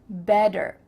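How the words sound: The T is said as a D.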